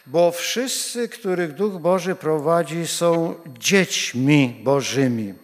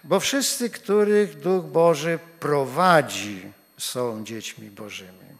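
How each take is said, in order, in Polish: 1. Akcent pada na 'dziećmi Bożymi' na końcu. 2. Akcent natomiast pada na 'Duch Boży'. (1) "Kładziemy akcent na dzieci Bożych" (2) "A inaczej połóżmy akcent"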